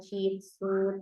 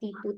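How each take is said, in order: First: The syllables begin with ch and ts sounds. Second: The syllables begin with plain t sounds. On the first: The speaker calls it right. "tapi Ta, Jitsu, Teto" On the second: The speaker calls it wrong. "bukan Ta, Titu, Teto"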